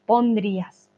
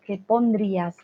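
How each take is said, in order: First: "Pondrías" with a clear N sound; corrected word. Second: "pondrías" with a clear N; corrected word. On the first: Teacher repeating the fixed word "Pondrías". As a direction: say "Pondrías", landing on the N. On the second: Teacher correcting her typo to "pondrías". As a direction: say "pondrías", pronouncing the N. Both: Shown as a demonstration. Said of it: "The N is very important".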